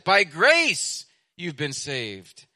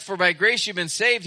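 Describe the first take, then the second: First: "grace" drawn out and driven home; slow down and land firmly on "grace"; "By grace" slow and emphatic, then a drop; stress on GRACE. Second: Said in the usual way. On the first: Shown as a demonstration. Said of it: "to emphasize it". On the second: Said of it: "he put that word charis at the beginning to emphasize it".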